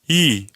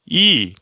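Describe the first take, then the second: First: The vowel resonates in the middle. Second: The vowel resonates toward the front. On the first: "중간에 갈 때" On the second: "소리가 앞에 있을 때"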